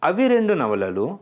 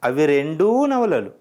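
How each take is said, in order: First: The number's final vowel is short. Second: The number's final vowel is lengthened. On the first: Those are two novels. "means those are two novels" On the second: Both of them are novels. "both of them are novels"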